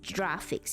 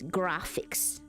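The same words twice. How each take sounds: First: It begins with a soft J-like sound. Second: It begins with a hard G sound. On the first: The speaker calls it wrong. "It's not graphics" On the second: The speaker calls it right. "It's graphics"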